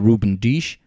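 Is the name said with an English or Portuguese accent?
Portuguese. It is said with a Portuguese accent.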